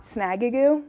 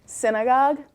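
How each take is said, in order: First: "snagagoo" read as spelt, ending in goo; misread pronunciation. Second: Said in the usual way. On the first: Shown as a demonstration. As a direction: mangle synagogue into "snagagoo". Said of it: "it's spelt like snagagoo". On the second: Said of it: "but pronounced synagogue".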